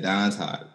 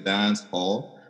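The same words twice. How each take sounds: First: It is said in a Patois accent. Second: It is said in standard English.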